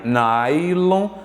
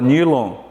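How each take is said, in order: First: The first vowel sounds like 'eye'. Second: The first vowel sounds like 'ee'. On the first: The speaker calls it right. "você fala nai" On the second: The speaker calls it wrong. "Você fala nylon, megabit? Não"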